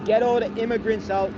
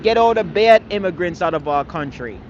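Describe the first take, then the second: First: Said in the usual way. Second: Louder, punch the word "bad" hard and falling; stress on bad. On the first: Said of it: "while you guys are screaming". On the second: Speaker telling critics what to shout instead, leaning on "bad". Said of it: "You need to start screaming".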